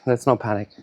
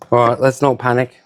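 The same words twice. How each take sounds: First: Softer "Let's not panic" to self; quiet self-calming. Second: Said in the usual way. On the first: Real, not acted. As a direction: murmur "Let's not panic" to calm yourself.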